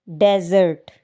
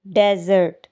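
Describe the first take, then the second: No difference in how they are said.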